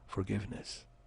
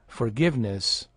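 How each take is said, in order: First: It is said in an imitated character's voice. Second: It is said in the speaker's ordinary voice.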